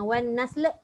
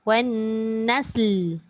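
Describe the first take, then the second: First: The final L is released with an added bounce. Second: The final L is held still without a bounce. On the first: The speaker calls it wrong. "Jangan wan nasl. Wan nasl dia tambah pula sifat qalqalah dekat lam" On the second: The speaker calls it right. "Lam matikan. Tergantung bunyi lam"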